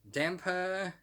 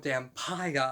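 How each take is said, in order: First: The ending does not rhyme with vampire. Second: The ending rhymes with vampire. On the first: "I prefer to call it Damper myself" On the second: "Dampire makes a lot of sense because it rhymes with vampire"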